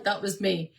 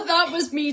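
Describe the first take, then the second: First: Said in the usual way. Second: High laughing admission, a bit louder. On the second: Real, not acted. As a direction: laugh through the confession. Laughing at own birth memory.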